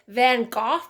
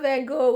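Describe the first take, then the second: First: The name is said the original, native way. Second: The name is said the common English way. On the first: "which is actually Van Gogh" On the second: "everybody says Van Gogh"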